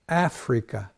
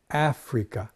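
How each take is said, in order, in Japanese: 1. 最初の音節を強く言います。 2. 最初の音節を強く言います。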